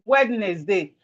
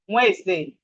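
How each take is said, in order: First: The middle D sound is pronounced. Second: The middle D sound is silent. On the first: The speaker calls it wrong. "it is not Wednesday" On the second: The speaker calls it right. "The proper pronunciation is Wednesday. The D is silent"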